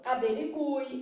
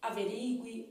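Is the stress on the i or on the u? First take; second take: u; i. First: The stress falls on the u; u is strong. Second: The stress falls on the i; u is weak. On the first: "como ele é forte, você fala averigue" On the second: "respaldam a pronúncia dessas palavras de outra maneira"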